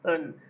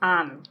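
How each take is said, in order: First: The word has a reduced schwa vowel. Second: The word has a full vowel. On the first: The speaker calls it right. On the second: The speaker calls it wrong.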